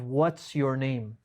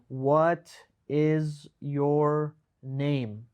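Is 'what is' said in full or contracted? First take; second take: contracted; full. First: The words are run together into a contraction. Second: The words are said slowly and fully separated.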